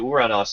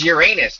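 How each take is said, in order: First: The name ends with an 'os' sound. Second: The name ends with an 'us' sound. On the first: It avoids a joke about the name. "if you use the Greek pronunciation" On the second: It invites a joke about the name. "I thought it was Uranus. Titter titter"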